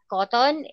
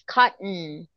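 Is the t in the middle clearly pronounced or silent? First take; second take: pronounced; silent. First: The middle t is clearly pronounced. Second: The middle t is silent. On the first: The speaker calls it wrong. "cotton is not cotton" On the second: The speaker calls it right. "it's cotton"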